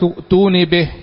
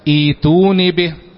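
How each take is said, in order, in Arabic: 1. متصلة بالكلمة اللي قبلها، مع همزة. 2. بدأت من جديد، مع صوت ياء طويلة 'ee'. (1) "وقال الملك ائتوني به" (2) "يبقى تبدأ ائتوني به"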